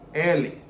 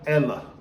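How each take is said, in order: First: It is said in a Brazilian Portuguese accent. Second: It is said in a European Portuguese accent. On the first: "the Portuguese word for he in Brazil" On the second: "Here in Portugal, it's ela"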